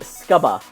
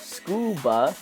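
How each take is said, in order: First: The first vowel is an 'uh' sound. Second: The first vowel is an 'oo' sound. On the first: The speaker calls it right. "it should be scuba, because it's underwater" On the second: The speaker calls it wrong. "instead of scuba"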